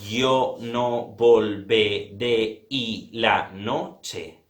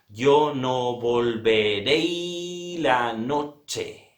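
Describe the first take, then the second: First: The final vowel of volveré stays apart from y. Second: The final vowel of volveré merges with y. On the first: The speaker calls it wrong. "Yo no digo" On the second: The speaker calls it right. "Es así. ... lo que hago es unir vocales"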